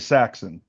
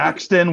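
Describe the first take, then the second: First: The t sound in the middle is dropped. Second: The t sound in the middle is pronounced.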